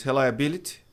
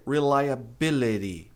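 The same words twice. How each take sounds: First: Reliability with a Portuguese R, missing the Y sound; wrong pronunciation. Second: Reliability with English R and the Y as I; correct pronunciation. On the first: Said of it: "muita gente diz". (reliability com R português, sem o I) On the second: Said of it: "O correto é". (reliability com R inglês e o I do Y) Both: Shown as a demonstration.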